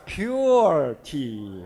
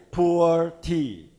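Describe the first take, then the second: First: "pure tea" said slowly as pyoo-er, with a y glide; the suggested pronunciation. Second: "poor tea" said slowly with a plain oo, no y; slow, separated "poor tea", sounding like poo-er; the wrong pronunciation. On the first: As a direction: stretch "pure" out as pyoooor. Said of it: "So say it like a pure tea". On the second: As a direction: drag out "poor" as the name to avoid. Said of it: "So I suggested to the company". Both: Shown as a demonstration.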